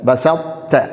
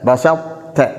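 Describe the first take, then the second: The two takes are said the same way.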